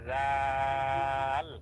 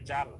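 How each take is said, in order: First: The first sound is thin, tongue touching teeth. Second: The first sound is made without tongue touching teeth. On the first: The speaker calls it right. "পাতলা করে জাল" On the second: The speaker calls it wrong. "যদি এইভাবে বলেন জাল, তাহলে কিন্তু জিহ্বার আগাটা সামনের উপরে দুই দাঁতের আগার সাথে লাগতেছে না"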